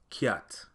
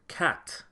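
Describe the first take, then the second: First: A y sound comes between c and the vowel. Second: The c is followed directly by the vowel. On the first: This is the Patois pronunciation. "in Patois would sound like kiat, with a heavy emphasis on that Y sound" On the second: This is the standard pronunciation. "the word cat"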